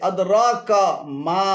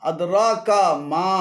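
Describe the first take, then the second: No difference in how they are said.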